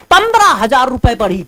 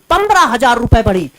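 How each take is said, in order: Both takes have the same delivery.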